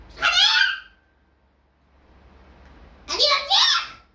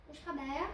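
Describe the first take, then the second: First: High, loud challenging yell; shout. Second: Soft, low muttered question; quiet. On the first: Yelling the question back at his friend. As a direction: bark the challenge out. Same words yelled. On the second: Asking his friend softly, almost to himself. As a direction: say it under the breath. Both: Real, not acted.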